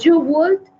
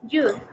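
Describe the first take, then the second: First: Two full words are said, with would pronounced. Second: One short syllable ending in a d sound.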